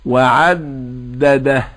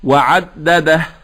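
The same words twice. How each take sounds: First: The d is held with a buzzing resonance. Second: The d is released without buzzing resonance. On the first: The speaker calls it wrong. "الدال لا نحدث زنة فيها، لا نقول وعدده، هذا خطأ" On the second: The speaker calls it right. "هكذا تقال"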